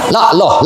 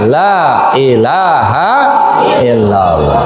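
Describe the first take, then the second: First: Most sounds are dropped, leaving a short clipped form. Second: Every sound is pronounced fully and clearly. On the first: The speaker calls it wrong. "Misalnya berkurang hurufnya" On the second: The speaker calls it right. "Dengan kalimat yang sempurna"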